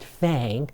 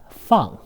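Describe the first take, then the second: First: The vowel is like the English word bang. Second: The vowel is an open ah sound. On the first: The speaker calls it wrong. "F A N G in Chinese is not fang" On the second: The speaker calls it right. "but feng"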